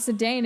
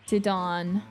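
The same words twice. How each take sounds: First: The name is pronounced in an anglicized way. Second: The name is pronounced in a French-like way. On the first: The speaker calls it wrong. "Zidane's name is not Zidane" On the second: The speaker calls it right. "it's actually more close to the French French pronunciation"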